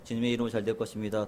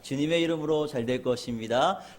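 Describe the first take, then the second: First: It is said plainly, without extra emphasis. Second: It is said with strong, energetic emphasis. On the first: The speaker calls it wrong. "그저" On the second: The speaker calls it right. "하면서 강조하셔야 됩니다"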